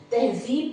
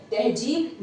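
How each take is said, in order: First: तहज़ीब with a clear z in the middle; correct z sound. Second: तहजीब with a hard j, the mistake; wrong j sound. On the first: Teacher shows students the right Urdu sound, careful z. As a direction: say तहज़ीब with ज़, not j. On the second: Teacher imitates the common student error, j sound. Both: Shown as a demonstration. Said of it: "तहजीब नहीं कहते हैं".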